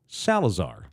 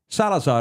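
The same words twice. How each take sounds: First: The name is said with an English-speaker's pronunciation. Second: The name is said with a Spanish pronunciation. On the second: "Salazar is preferred"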